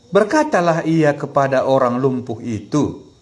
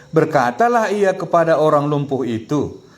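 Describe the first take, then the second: Both takes have the same delivery.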